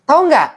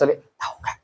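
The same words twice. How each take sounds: First: It is said at ordinary speaking volume. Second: It is said softly, with lowered volume. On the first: The gossip is still ordinary. "itu masih biasa" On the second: The gossip is getting more serious. "Volumenya semakin kecil"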